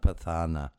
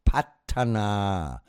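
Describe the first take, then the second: First: The middle consonant is a breathy th sound. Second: The middle consonant is a plain t sound. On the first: The speaker calls it wrong. "It's not pathana" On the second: The speaker calls it right. "It's called patana. So it would be like pat, P A T"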